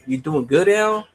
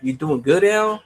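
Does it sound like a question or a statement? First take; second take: question; question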